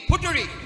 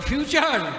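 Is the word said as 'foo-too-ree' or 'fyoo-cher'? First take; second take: foo-too-ree; fyoo-cher. First: It is said as three syllables, foo-too-ree. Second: It is said as two syllables, fyoo-cher. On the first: The speaker calls it wrong. "ওটা ফুটুরি না" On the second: The speaker calls it right. "ওটা হচ্ছে ফিউচার"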